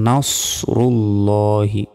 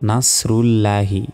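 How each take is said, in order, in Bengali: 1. s ধ্বনিটি ভারী ও জোরালো। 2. s ধ্বনিটি সাধারণ ও হালকা। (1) "নুন সদ জবর নাসরুল্লাহি" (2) "এখানে আমরা অনেকে বলি নাসরুল্লাহি, নাস নয়"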